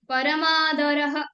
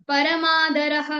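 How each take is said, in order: Both takes have the same delivery.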